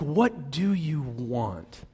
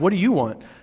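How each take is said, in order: First: It is asked in a deep, gentle, sincere tone. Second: It is asked in a confrontational, aggressive tone.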